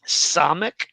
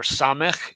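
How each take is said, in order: First: Samech ending in a hard k; alternative pronunciation. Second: Samech ending in a raspy kh; alternative pronunciation. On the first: Teacher naming the Hebrew letter, Samech with hard k. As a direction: say Samech as "SAH-mek", with a plain k. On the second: Teacher offering the other option, Samech with guttural kh. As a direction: say Samech as "SAH-mekh", like Bach. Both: Shown as a demonstration. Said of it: "or Samech, if you want".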